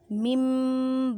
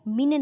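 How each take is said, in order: First: It ends in a nasalized, held m sound. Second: It ends in a plain n sound. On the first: The speaker calls it right. "मिम बादी गुन्ना करें" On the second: The speaker calls it wrong. "मिन नहीं कहना"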